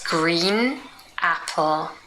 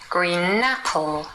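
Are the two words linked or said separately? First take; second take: separate; linked. First: The two words are said separately. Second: The n runs into apple, like napple.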